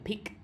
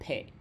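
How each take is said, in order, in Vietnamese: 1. Nguyên âm không phải là âm giống 'e'. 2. Nguyên âm là âm giống 'e'. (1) "Không phải là pick" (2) "mà là pick"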